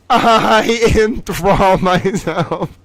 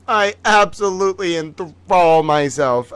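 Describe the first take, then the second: First: Slow, laughing through the words. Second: Said in the usual way. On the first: Real, not acted. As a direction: giggle it out slowly. Repeats claim while laughing. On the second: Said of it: "I promise you".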